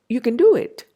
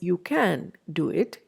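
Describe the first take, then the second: First: 'Can' is said with almost no vowel. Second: 'Can' is said with a full vowel. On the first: The speaker calls it right. "compressed into a very weak form of the word" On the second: The speaker calls it wrong. "We don't say it as"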